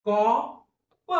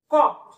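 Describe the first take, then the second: First: "कॉ, प" split with a clear gap; phonics-style कॉ... प; sounded out. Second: Said in the usual way. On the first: Shown as a demonstration. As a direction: say कॉ, pause, then a separate प. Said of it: "कसा उच्चार होईल". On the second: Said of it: "संपला शब्द".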